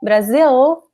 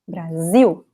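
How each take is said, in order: First: The final L is clearly pronounced. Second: The final L is not pronounced. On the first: The speaker calls it wrong. "We do not say Brazil" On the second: The speaker calls it right. "It ends with the letter L, which we do not pronounce"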